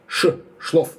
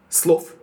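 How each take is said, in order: First: "шлов" with sh at the start, after naming "ш"; sh sound in шлов. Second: "слов" with a hissing s at the start, not sh; s sound in слов. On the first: Collector quotes the singer's spoken answer, sh sound in "шлов". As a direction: say "ш", then "шлов" opening on sh. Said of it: "она уверенно говорит". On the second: Collector quotes the singer's sung word, s sound in "слов". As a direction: say "слов" beginning with a plain s. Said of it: "Раиса Семёновна поёт". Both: Shown as a demonstration.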